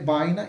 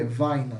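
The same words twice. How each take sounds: First: It begins with a B sound, Spanish style. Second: It begins with a V sound, Guarani style.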